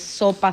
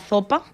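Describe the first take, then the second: First: The first sound is a plain s. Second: The first sound is a lisped, z-like s. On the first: The speaker calls it right. "en vez de sopa" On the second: The speaker calls it wrong. "pronunciando la S como Z"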